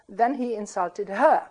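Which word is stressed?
he. The main stress falls on the pronouns. Calling someone a Republican is itself an insult, and he returned it. "calling somebody a Republican is an insult"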